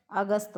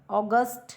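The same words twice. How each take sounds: First: Short a at the start of अगस्त; Hindi-ised अगस्त. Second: अगस्त as "aw-gust" with hard t; English-style अगस्त ending in retroflex t. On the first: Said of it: "अगस्त हो गया". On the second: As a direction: open o at the start of अगस्त. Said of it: "विदेशी ध्वनियों का प्रभाव". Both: Shown as a demonstration.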